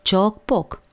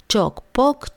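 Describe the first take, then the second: First: Sung, cioc-poc drops down to close the taunt; sung, land the final cioc-poc firmly downward; girl finishing her taunt, cioc-poc sung downward; sung, sing-song taunt falling. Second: Sung, cioc-poc jumps up high at the end; sung, toss a mocking cioc-poc up like a question; girl taunting her brother, cioc-poc sung upward; sung, sing-song taunt rising. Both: A narrator's reading. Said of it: "apostrofă Olguța pe Dănuț".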